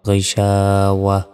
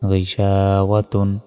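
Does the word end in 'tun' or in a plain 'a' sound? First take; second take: plain a; tun. First: The word ends with a plain -a sound. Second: The word ends with a full -tun ending. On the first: The reciter stops at this word. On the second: The reciter continues without stopping.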